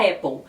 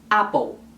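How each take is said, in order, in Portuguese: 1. É dita perto da pronúncia em inglês. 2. É dita com pronúncia espanhola. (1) "um pouco mais próximo à pronúncia do inglês" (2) "em países que falam espanhol eles falam Apple"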